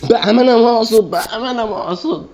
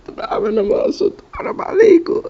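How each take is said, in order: First: Very high, put-on whiny plea; mock pleading. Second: Very high, breathless whispered plea; whispered squeak. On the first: Gamer pleading with the game, squeaky and high. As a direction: beg in a squeaky cartoon voice. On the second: Acted. Gamer begging the game in a tiny whispered squeak. Pleading with game after dying.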